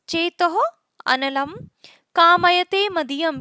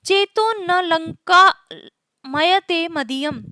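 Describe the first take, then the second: First: It is split as 'analam kamayate'. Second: It is split as 'na lanka mayate'. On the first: My mind desires fire. "तीसरे प्रकार का है चेतो अनलम" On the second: My mind is not delighting in Lanka. "अगर इसको इस तरह से बोले"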